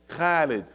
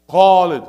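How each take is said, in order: First: The first consonant is light and thin. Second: The first consonant is heavy and full. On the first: The speaker calls it wrong. "they make the tarqiq" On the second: The speaker calls it right. "No, not Khalid"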